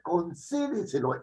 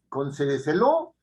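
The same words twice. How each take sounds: First: The stress falls on the second syllable, 'ce'. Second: The stress falls somewhere other than the second syllable. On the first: The speaker calls it right. "el anterior a la antepenúltima" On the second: The speaker calls it wrong. "Yo no he dicho concédeselo"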